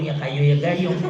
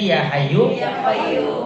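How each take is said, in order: First: The words sound like 'kayu' and 'gayung'. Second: The words sound like 'hayyu' and 'qayyum'. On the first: An ignorant old man recites it this way. The speaker calls it wrong. "Walaupun dia nyebutnya salah" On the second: The teacher recites it this way. The speaker calls it right. "gurunya bacanya ya hayu"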